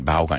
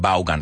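First: The name is said with an English pronunciation. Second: The name is said with a Spanish pronunciation. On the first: This is how the name is really pronounced. The speaker calls it right. "Eso es como se pronuncia de verdad" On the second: This is how local people say the name. The speaker calls it wrong. "Yo sé que nosotros hasta decimos Vaughan Radio"

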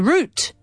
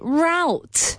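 First: It is said with a British accent. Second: It is said with a North American accent.

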